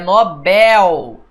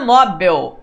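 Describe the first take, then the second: First: The stress is on the last syllable. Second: The stress is on the first syllable. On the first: The speaker calls it right. "é Nobel. É uma palavra oxítona" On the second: The speaker calls it wrong. "Não é Nobel"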